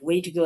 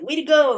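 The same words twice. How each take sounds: First: It is said flatly, as a plain phrase. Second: It is said with enthusiastic, praising energy. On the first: It refers to the route or method to get somewhere. "like what is the way to go somewhere?" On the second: It congratulates someone on doing well. "encouraging you like that, like good job"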